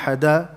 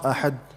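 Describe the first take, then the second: First: The final d is followed by a full vowel. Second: The final d is clipped with no echo. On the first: "not ahada" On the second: "likewise not ahad"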